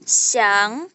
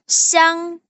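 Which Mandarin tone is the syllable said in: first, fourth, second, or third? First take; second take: second; first. First: The syllable is said in the second tone. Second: The syllable is said in the first tone. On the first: "Nada dua" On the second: "Itu siang"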